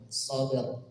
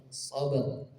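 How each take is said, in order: The two takes are said the same way.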